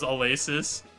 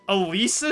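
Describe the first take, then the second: First: The middle vowel is not a long E. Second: The middle vowel is a long E. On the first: "that's how I wanted to pronounce it" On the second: "the long E sound, like, the E sound there seems diabolical"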